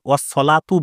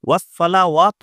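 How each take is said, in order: First: The 'wa' syllable is dropped after 'sala'. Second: The 'wa' syllable is pronounced after 'sala'. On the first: The speaker calls it wrong. "অনেকে ওয়াস-সলাতু বলে... ওয়াও সহ জাবারটা পুরো ছেড়ে দেয়" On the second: The speaker calls it right. "ওয়াস-সালাওয়াতু আছে এখানে"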